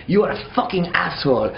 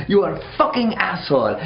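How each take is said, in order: First: Put-on French-accented yell, first take; angry French accent. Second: Mock French insult, higher and louder; escalating French-accented rant, second take; louder French-accented yell. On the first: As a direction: spit out "asshole" like a drunk Frenchman. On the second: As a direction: hit "fucking" harder on the repeat. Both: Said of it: "it's like a French dude".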